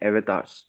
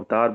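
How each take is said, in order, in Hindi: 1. यह शब्द 'eh' स्वर से शुरू होता है। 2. यह शब्द 'uh' स्वर से शुरू होता है। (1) "प्रॉपर प्रोनाउंसिएशन है एज़ per the digital world" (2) "सामान्य भाषा में अच्छे समझने के लिए"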